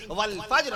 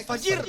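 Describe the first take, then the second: First: "والفجر" as wal-fajr, no vowel before r; correct Quranic pronunciation. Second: "فجر" as fa-jir, two syllables; mistaken pronunciation. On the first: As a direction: recite "والفجر" with j and r joined. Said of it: "باقاعدہ تلفظ بیان فرما دیا". ("والفجر" میں جیم ساکن) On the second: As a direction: slip an i between j and r in "فجر". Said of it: "فجر نہ کہا کیجئے". ("فجر" میں جیم پر زیر) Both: Shown as a demonstration.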